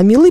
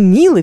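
First: The stress is on the last syllable. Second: The stress is on the first syllable. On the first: The speaker calls it right. "а милы, потому что ударение на последний слог" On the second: The speaker calls it wrong. "не милы"

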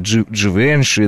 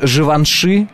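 First: The name begins with a 'dzh' sound. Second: The name begins with a soft 'zh' sound.

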